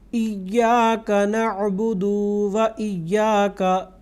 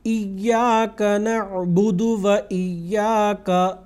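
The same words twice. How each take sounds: First: The final vowel of na'budu is drawn out. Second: The final vowel of na'budu is short. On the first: The speaker calls it wrong. "ये जो दू लंबा होता है इसको बिल्कुल नहीं करना" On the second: The speaker calls it right. "इस तरह से पढ़ना है"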